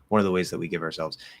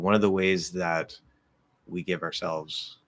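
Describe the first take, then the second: First: The phrase flows on without a pause. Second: A short pause follows the phrase. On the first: "instead of saying" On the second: "I did a little pause there"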